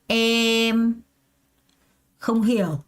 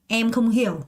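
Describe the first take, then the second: First: There is one pause after the first word. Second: The whole phrase flows without any pause. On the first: "주어랑 수어를 끊는 거예요" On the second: "한 번에 통째로 가요"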